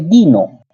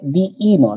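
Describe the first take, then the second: First: The i sound is said once, di-no. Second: The i sound is said twice, di-i-no. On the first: The speaker calls it wrong. "no se lee dino" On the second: The speaker calls it right. "Se lee diino"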